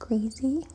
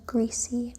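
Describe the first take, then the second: First: The middle consonant is a buzzing z sound. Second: The middle consonant is a hissing s sound.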